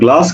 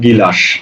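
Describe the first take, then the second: First: The g and l form one tight cluster. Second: A short i vowel splits the g and l. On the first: This is the standard pronunciation. The speaker calls it right. "তুমি বলছো গ্লাস" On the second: The speaker lacks formal schooling. The speaker calls it wrong. "এটা সঠিক উচ্চারণ কি তারা জানেন না তারা বলে ফেলেন কি গিলাস"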